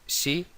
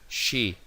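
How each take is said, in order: First: It begins with a plain s sound. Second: It begins with a hushing sh sound. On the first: The speaker calls it wrong. "No se dice sí" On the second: The speaker calls it right. "sino hay que aspirar"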